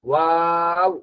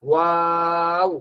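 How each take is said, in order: Both takes have the same delivery.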